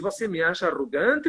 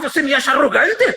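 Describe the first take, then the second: First: It is asked in a soft, humble tone. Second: It is asked in a defensive, offended tone. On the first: The asker is open to the criticism. The speaker calls it right. "a humildade de dizer assim" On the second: The asker rejects the criticism. The speaker calls it wrong. "essa postura arrogante de dizer que não é arrogante"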